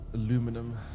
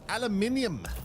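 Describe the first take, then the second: First: It is said the American way, four syllables. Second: It is said the British way, five syllables. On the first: The speaker calls it wrong. "You guys and your American pronunciation for everything" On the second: The speaker calls it right. "It is aluminium"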